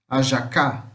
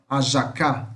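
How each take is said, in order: No difference in how they are said.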